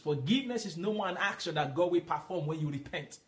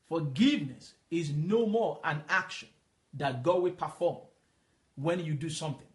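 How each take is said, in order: First: It is said at normal speed. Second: It is said slowly.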